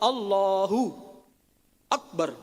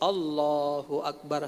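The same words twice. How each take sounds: First: There is a pause after the first word. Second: It is said in one unbroken breath. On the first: The speaker calls it wrong. "tidak boleh berhenti di ucapan Allahu" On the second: The speaker calls it right. "Harus Allahu Akbar satu napas"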